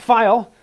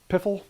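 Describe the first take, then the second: First: The word starts with a plain F sound. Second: The word starts with an audible P sound. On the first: "Most people I've talked to pronounce it file" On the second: "spelled with a P"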